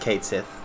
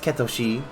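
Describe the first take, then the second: First: The name is said with English sounds. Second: The name is said with Japanese sounds. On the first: "In English, it is Cait Sith" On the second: "In Japanese, it's Ketoshi"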